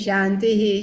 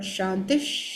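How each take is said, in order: First: The word ends with a full 'hi' syllable. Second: The word ends with a half 'sh' sound. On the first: The speaker calls it wrong. "not shantihi" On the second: The speaker calls it right. "but shantish"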